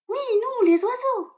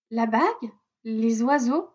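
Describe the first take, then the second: First: Very high chirpy bird voice; little robin voice. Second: Dazed, halting repeat of "La bague, les oiseaux"; stunned echo. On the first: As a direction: voice a tiny robin proudly. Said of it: "précise le rouge-gorge". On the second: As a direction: mumble "les oiseaux" in disbelief. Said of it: "aucun autre mot n'arrive à sortir". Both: A narrator's reading.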